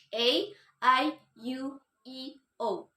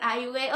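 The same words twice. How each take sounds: First: The letters are named with English letter sounds. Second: The letters are named with Indonesian vowel sounds. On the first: The speaker calls it right. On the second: The speaker calls it wrong. "kalau bahasa Inggris kita bacanya bukan"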